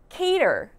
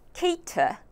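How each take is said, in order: First: The r is sounded and the t is soft. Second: The r is silent and the t is crisp. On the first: "미국식으로 ... 이런 식으로 발음이 될 거예요" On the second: "T 발음은 꼭 넣어서 cater라는 발음이 나고요"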